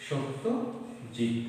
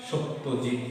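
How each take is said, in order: First: Satyajit drawn out very slowly, falling; slow dictation. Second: Said in the usual way. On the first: Shown as a demonstration. Teacher repeating word slowly for pupils. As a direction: spell out Satyajit at a crawl. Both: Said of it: "কি আছে?".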